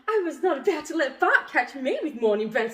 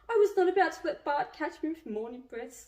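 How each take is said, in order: First: The line is read in a tone that is not sad. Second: The line is read in a sad tone. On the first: "Doesn't work" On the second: "Sad tone"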